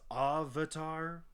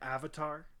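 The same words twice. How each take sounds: First: The word has an altered, nonstandard pronunciation. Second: The word has its standard English pronunciation. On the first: The speaker calls it wrong. "which is not correct at all" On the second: The speaker calls it right. "It has a specific single pronunciation"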